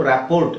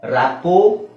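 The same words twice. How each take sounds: First: ರ್ಯಾಪೋರ್ಟ್ with R and T sounded; mispronounced rapport. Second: ರ್ಯಾಪೋ ending on an open O; silent R and T. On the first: Teacher showing the spelling reading, ರ್ಯಾಪೋರ್ಟ್ with RT voiced. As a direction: voice the final RT in ರ್ಯಾಪೋರ್ಟ್. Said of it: "ಟಿ ಎರಡೂ silent". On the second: Teacher modelling silent letters, ರ್ಯಾಪೋ without final RT. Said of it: "ಅಂತ ಹೇಳ್ಬೇಕು". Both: Shown as a demonstration.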